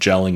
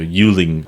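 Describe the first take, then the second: First: The name begins with a J sound. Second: The name begins with a Y sound. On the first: The speaker calls it wrong. "I think I'm probably actually pronouncing this wrong" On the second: The speaker calls it right. "it might be more of like a"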